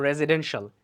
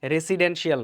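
First: রেসিডেন্সিয়াল said "re-zi-DEN-shul", with a z; correct pronunciation. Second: রেসিডেন্সিয়াল said "re-si-den-shi-al", with an s; common mispronunciation. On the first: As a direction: say রেসিডেন্সিয়াল with z and a short "shul" ending. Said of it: "এটা উচ্চারণ হবে". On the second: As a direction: say রেসিডেন্সিয়াল with s and a full "shi-al" ending. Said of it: "রেসিডেন্সিয়াল না". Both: Shown as a demonstration.

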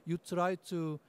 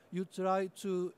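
The two takes are said the same way.

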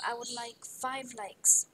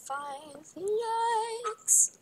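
First: Said in the usual way. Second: Very slow, rising high on FIVE LIKES; playful, long-held high "likes"; drawn-out plea. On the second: Pretend.

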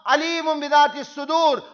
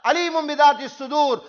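No difference in how they are said.

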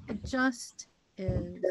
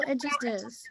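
First: "It just is" slow and lower, each word weighed; slow emphatic repeat. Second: Said in the usual way. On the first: Shown as a demonstration. Host repeating it slowly to the guest, lower and weighty. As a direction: let "It just is" land slowly and settle. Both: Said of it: "repeats phrase for emphasis".

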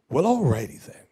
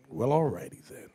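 First: Catchphrase delivery. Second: "Well, alrighty then" repeated much softer, like an aside; softer echo. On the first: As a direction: toss off "alrighty" as a wry catchphrase. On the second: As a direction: mutter the catchphrase back under your breath. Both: Shown as a demonstration.

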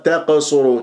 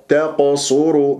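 First: تقصروا with the ق bounced thin; wrongly light qaf. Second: Slow تقصروا with thick echoing ق after a light ت; heavy qaf. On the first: Teacher imitates a common mistake, thin qaf. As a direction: flatten the ق of تقصروا into a light echo. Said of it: "تقلقل بقاف مرققة". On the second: Teacher models careful recitation, slow heavy-qaf تقصروا. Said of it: "فننتبه". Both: Shown as a demonstration.

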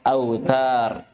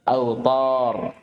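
First: Thin, front T in أوتار; light tā'. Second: Heavy, dark T in أوطار; emphatic ṭā'. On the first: Teacher contrasts tā' mid-word, light T. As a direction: say أوتار with a plain dental T. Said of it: "فرقوا بين الطاء والتاء". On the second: Teacher shows ṭā' mid-word, emphatic T. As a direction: say أوطار with backed T and darkened vowel. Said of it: "طأ في وسط الكلمة". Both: Shown as a demonstration.

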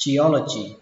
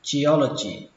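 Both takes have the same delivery.

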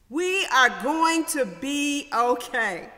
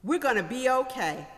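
First: We are going to be okay, slow and louder, each word weighted; slow emphatic reassurance. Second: Said in the usual way. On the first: Shown as a demonstration. Preacher assuring the congregation, slow and emphatic.

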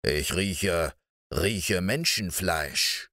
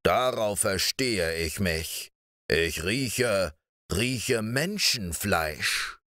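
First: Low, slow sniffing giant voice; a menacing ogre savouring the scent; eerie giant. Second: A menacing ogre savouring the scent; eerie giant. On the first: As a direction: lower and slow, the giant smelling human flesh. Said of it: "sagte er unheimlich". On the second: Giant insists he smells flesh. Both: Acted.

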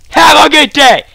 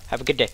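First: High, loud mock-polite farewell; shouted send-off. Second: Very soft, low mock politeness; quiet send-off. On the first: Gamer dismissing a beaten opponent, shouted mock courtesy. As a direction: belt out the goodbye, pitched up. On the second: Gamer dismissing a beaten opponent, hushed polite farewell.

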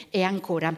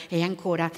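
No difference in how they are said.

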